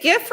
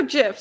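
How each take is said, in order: First: "gif" with a hard G as in gift. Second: "gif" with a soft G, like "jif". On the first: Panelist asking which pronunciation, "gif" with hard G. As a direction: say "gif" starting like "give". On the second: Panelist asking which pronunciation, "gif" said as "jif". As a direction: say "gif" starting with a J sound. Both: Shown as a demonstration. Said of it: "Is it gif or gif?".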